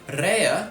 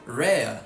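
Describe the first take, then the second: First: The initial r is strong and rolled. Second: The initial r is soft and unrolled. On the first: "from an r" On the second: "it becomes an approximate r"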